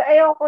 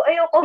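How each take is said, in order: First: "Ayoko" repeated even louder, insisting; emphatic loud "Ayoko" to grandfather; firm refusal. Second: "Ayoko" said high and loud, a stubborn no; first loud "Ayoko", pushing back; defiant refusal. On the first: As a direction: stamp down the no, really meaning it. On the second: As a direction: refuse him outright, louder than your talk. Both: Retold or imitated. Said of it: "Sabi ko talaga".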